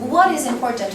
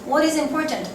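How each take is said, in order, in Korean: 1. 강세는 what이라는 단어에 있어요. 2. 강세는 important라는 단어에 있어요. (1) "중요한 것에 해당하는 대답, 무엇에 대한 대답을 해야 되는 거야" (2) "강세가 내가 important 있었잖아"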